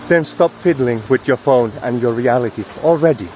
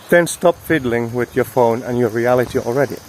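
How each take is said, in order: Both takes have the same delivery.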